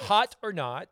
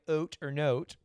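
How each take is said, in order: First: The first word starts with an h sound. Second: The first word starts without an h sound. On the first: It is the ordinary game name. "It's not oat or note. Oat. It's hot or not" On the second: It puns on the French word for high fashion. "he wants to use the oat, H-A-U-T-E"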